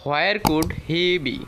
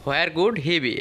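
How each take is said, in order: First: Each word spaced out slowly for learners; slow model reading. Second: Said in the usual way. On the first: Shown as a demonstration. Teacher modelling the question for students, slowly. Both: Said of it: "এইভাবে বলবো".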